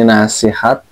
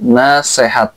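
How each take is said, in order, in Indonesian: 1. Vokal kedua dibaca i. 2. Vokal kedua dibaca e. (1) "terbaca i iya-nya" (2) "terbaca e iya-nya"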